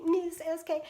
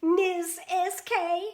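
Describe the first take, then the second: First: Said in the usual way. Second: Louder, higher, spelling out her name proudly; name called out loud. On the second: Real, not acted. Painter spells her name loudly for Bobby, announcing. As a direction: announce each letter clearly.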